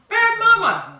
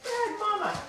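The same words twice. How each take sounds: First: High, loud playful self-scolding; cheerful loud scold of a silly owner; loud mock scold. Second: High, soft playful self-reproach; gentle scold of a silly owner; soft mock scold. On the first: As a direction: bark it at yourself in fun. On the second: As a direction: murmur it at yourself in fun. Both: Self-scolding while playing with puppy.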